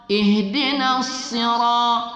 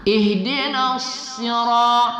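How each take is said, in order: No difference in how they are said.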